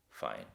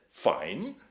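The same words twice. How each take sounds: First: Much lower, slow and still; a cold calm reply from the dark; quiet, deep calm answer. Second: Louder, cocky mock of the calm voice; jeering imitation of the voice; mocking echo. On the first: A narrator's reading. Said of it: "a voice from the dark saying very calmly". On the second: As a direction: throw the word back as a joke. Robert mocks the voice.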